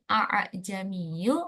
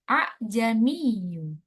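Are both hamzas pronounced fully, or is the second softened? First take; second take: both full; second softened. First: Both hamza sounds are pronounced fully. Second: The second hamza is softened, not fully pronounced. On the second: "menjadi ... dengan tashil, yaitu menyembunyikan salah satu dari hamzah"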